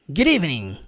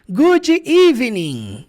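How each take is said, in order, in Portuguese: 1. As duas palavras se juntam com fluidez. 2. As palavras são ditas separadamente e de forma mecânica. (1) "Em inglês da vida real, como é que ele pronuncia?" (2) "de forma separada, de forma mecânica, quadrada"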